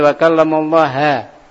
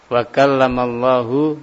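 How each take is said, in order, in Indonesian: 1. Kata Allah diakhiri dengan vokal 'a'. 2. Kata Allah diakhiri dengan vokal 'u'.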